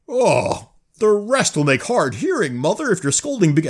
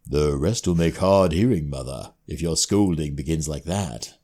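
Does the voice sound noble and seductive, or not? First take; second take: not; noble, seductive. First: The voice is not noble or seductive. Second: The voice sounds noble but seductive.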